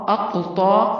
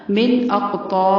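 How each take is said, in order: First: اقطا with the ق bounced; echoing ق in اقطا; qalqala on qaf. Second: اقطا with a bouncing qalqala on ق; echoing qaf. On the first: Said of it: "قاف کو ہلانا ہے". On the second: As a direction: let the ق in اقطا echo. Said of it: "قاف کو ہلانا ہے، کلکلا کرنا ہے". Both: Shown as a demonstration.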